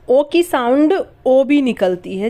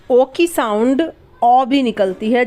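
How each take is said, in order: First: Second ओ as a rounded "oh" vowel; "ओ" rounded to oh, as in वोट; close O sound. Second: Second ओ as an open "aw" vowel; "ओ" opened to aw, as in टॉप; open O sound. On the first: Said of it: "जैसे वोट". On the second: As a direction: say the second "ओ" like the vowel in British "top". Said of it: "ओ भी निकलती है और ओ भी निकलती है". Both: Shown as a demonstration.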